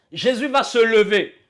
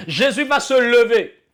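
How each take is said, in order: Both takes have the same delivery.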